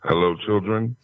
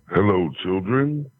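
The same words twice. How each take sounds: First: It is said in his ordinary voice. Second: It is said in an imitated, sexier voice.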